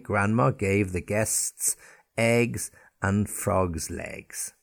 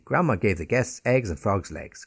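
First: The sentence is said slowly. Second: The sentence is said quickly. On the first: "it slowly just to get the sounds" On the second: "And say it quickly"

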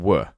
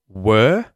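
First: The vowel is reduced to a schwa. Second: The vowel is full and clear. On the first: "more like a was and were; we're completely reducing the vowel sound" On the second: "a clear was and or were"

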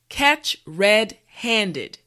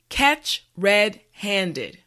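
The two takes are said the same way.

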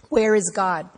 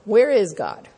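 First: It is asked as a plain, sincere question. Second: It is asked in a mocking, sarcastic tone.

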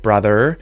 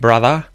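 First: The final R is pronounced. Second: The final R is silent. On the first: "instead of brother" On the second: "she said"

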